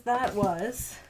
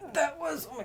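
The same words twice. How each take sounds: First: Said in the usual way. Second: High, laughing burst on that. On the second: Real, not acted. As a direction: laugh it out in disbelief. Laughs at how many books.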